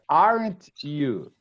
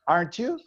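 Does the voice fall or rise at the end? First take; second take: fall; rise. First: The pitch falls at the end. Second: The pitch rises at the end. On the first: The speaker expects a yes as confirmation. "When you're asking for confirmation, it's falling" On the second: The speaker is really asking for information. "when you are asking for information, it's rising"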